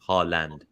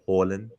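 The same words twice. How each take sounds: First: The first syllable sounds like 'ha'. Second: The first syllable sounds like 'hor'. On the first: This is the easier form offered to Western audiences. "H A and then land" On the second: This is the original form taught in preseason. "horny and then land. So you say Haaland"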